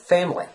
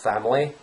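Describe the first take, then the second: First: The first vowel is the 'eh' sound. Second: The first vowel is the open 'ash' sound. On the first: This is how people say it in real life. "They pronounce it as family" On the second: This is the dictionary pronunciation. "family is not pronounced family"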